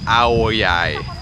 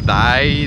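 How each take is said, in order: First: The second syllable begins with a Y sound. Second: The second syllable begins with a D sound. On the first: This is how the locals say it. The speaker calls it right. "les autres ils font comme un Y au lieu d'un D. Fait que c'est aoyai" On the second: This is how French speakers would read it. The speaker calls it wrong. "nous dans la langue française on dirait dai"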